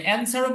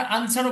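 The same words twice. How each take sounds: First: অ্যানসারও opening on a front "a" as in cat; American vowel. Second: আনসারও opening on a broad "ah"; British vowel. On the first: Teacher gives the first option, অ্যানসারও with front vowel. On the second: Teacher gives the second option, আনসারও with broad vowel. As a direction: say আনসারও with a long open আ first. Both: Shown as a demonstration. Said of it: "এখানে দুইভাবে বলা যায়".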